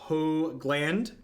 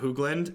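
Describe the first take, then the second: First: The first vowel is a long O sound. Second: The first vowel is not a long O sound. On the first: The speaker calls it right. "Hoogland with a long O sound" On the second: The speaker calls it wrong. "Not Hoogland"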